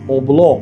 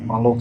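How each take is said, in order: First: The word starts with an 'o' sound and 'bl'. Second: The word starts with an 'a' sound and 'll'. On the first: The speaker calls it wrong. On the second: The speaker calls it right.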